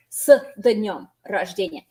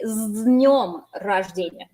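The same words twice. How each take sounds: First: "с днём" with a clear d sound after the s; wrong pronunciation. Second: "с днём" with the s turned into a z and no d; correct pronunciation. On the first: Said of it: "you don't pronounce it as". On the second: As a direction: say "с днём" as z-nyom. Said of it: "This turns into a z". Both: Shown as a demonstration.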